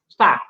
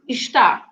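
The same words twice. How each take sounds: First: The first vowel is dropped, leaving 'stá'. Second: The first syllable is pronounced in full. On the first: This is how people usually say it. "It's just está" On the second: This full form is rarely heard. "you very rarely listen to está"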